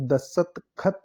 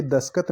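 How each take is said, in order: First: "दस्तखत" split before an aspirated khat; careful "दस्तखत" with clear kh; correct pronunciation. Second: "दस्खत" said with plain k, daskat; quick "दस्खत" without aspiration; wrong pronunciation. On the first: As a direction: sound out "दस्तखत" as dasat-khat. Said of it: "ख आएगा". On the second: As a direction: colloquial "दस्खत" as das-kat. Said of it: "ये दस्खत नहीं है". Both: Shown as a demonstration.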